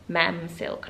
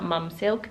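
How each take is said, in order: First: The first word has the vowel of 'ma'am'. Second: The first word has the vowel of 'mum'. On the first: The speaker calls it right. "It's actually Mam" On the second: The speaker calls it wrong. "not Mum Silk"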